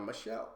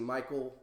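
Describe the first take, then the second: First: It is said with a soft sh, as Michelle. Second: It is said like the English name Michael. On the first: "so I kind of did like a Michelle, but that that's not right" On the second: "I look at that and I see Michael, even without the E, just my Americanized thing"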